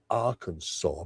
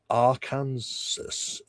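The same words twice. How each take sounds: First: The name does not end like Kansas. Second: The name ends sounding like the word Kansas. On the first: The speaker calls it right. "instead of Arkansas" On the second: The speaker calls it wrong. "if you mess up and say Arkansas ... because it's spelt like Kansas"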